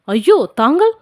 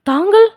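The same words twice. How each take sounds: First: Hesitant dawning surprise. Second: Startled question. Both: A narrator's reading. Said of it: "என்று தயங்கினார்".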